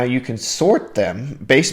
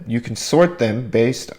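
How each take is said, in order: First: Voice crack. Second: Said in the usual way. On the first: Real, not acted. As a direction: voice cracks slightly mid-phrase. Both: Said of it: "my voice just cracked a little bit".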